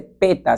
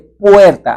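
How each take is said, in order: First: The word is said in a reduced child-like form. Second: The word is said in its full form. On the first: The speaker calls it wrong. "no se dice peta" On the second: The speaker calls it right. "se dice puerta"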